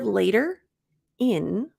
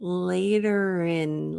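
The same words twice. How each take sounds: First: The two words are said separately. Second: The t-sound links straight into the second word. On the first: "instead of later in" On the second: "we're going to link it rin"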